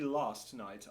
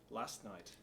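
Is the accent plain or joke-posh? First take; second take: posh; plain. First: It is said in an exaggerated posh accent. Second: It is said in an ordinary English accent.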